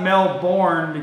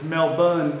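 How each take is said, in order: First: The name is pronounced just as it is spelled. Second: The name is pronounced the local, unspelled way. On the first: The speaker calls it wrong. "it's not Melbourne because that's how it's spelled" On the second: The speaker calls it right. "but it's Melbourne"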